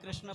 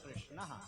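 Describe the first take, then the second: First: The word ends without a breathy h sound. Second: The word ends with a breathy h sound. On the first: The speaker calls it wrong. "हम लोग कृष्ण बोल देते हैं, ये अशुद्ध शब्द है।" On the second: The speaker calls it right. "ये शब्द शुद्ध शब्द कृष्ण।"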